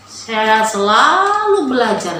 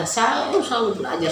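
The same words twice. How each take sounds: First: Slow and louder, every word leaned on; emphatic vow. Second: Said in the usual way. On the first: Real, not acted. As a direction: drag it out with conviction.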